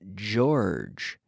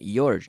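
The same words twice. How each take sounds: First: The first sound is the voiced 'j' sound. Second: The first sound is not the voiced 'j' sound. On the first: The speaker calls it right. "This J is the same as the G in" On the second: The speaker calls it wrong. "Not not George, no"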